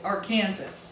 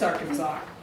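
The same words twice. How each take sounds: First: The word ends with a 'Kansas' sound. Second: The word ends with a 'saw' sound. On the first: The speaker calls it wrong. "it's actually the same as Kansas, but we don't pronounce it" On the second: The speaker calls it right.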